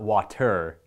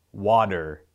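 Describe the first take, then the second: First: Water with a clear T, wah-ter; water, T sharply sounded; standard pronunciation. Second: Water said wadder, flapped middle; Canadian pronunciation. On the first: Contrasting with the crisp-T water he doesn't say. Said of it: "It's not water". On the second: Showing viewers how he says water, wadder. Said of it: "listen to me say". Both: Shown as a demonstration.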